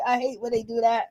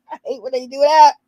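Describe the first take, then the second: First: Quiet, muttered. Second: Louder repeat. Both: Real, not acted.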